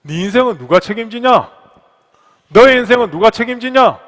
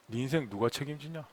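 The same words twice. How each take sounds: First: Building to a loud, high demand; forceful challenge. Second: Low, hushed question; God's inner voice. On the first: God challenging the pastor over his life, mounting forceful demand. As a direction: drive the question home harder each time. Repeats God's question with rising force. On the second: God questioning the pastor about his life, low and quiet. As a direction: put it softly and gravely. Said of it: "이렇게 질문하십니다". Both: Acted.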